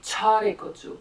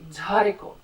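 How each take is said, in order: First: The first consonant is voiceless. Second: The first consonant is voiced and breathy. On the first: The speaker calls it wrong. "you would rather say" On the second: The speaker calls it right. "it's sounding. It comes from da, and not from ta"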